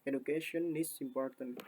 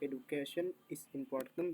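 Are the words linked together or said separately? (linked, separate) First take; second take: linked; separate. First: Final consonants run straight into the next vowels. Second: Each word is said separately, one by one. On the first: "bisa menjadi" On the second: "nggak perlu menyebutkan satu-satu"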